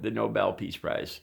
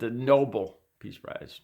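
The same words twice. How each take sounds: First: The word sounds like no-BEL, stress at end. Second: The word sounds like noble, stress at start. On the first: The speaker calls it right. "N O B E L, no, the Nobel Peace Prize" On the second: The speaker calls it wrong. "he called it the N O B L E"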